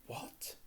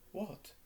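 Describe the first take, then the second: First: "What?" breathed out in a whisper, voiceless; disbelieving whispered "What?"; stunned whisper. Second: A short, higher "What?", caught off guard; surprised "What?"; startled question. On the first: Harry repeats it, stunned. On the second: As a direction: blurt it out in surprise. Harry startled by the revelation. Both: A narrator's reading.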